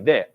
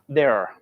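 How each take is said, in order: First: The final R is not pronounced. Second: The final R is strongly pronounced. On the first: "we don't put a lot of stress in there" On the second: "R is like very hard"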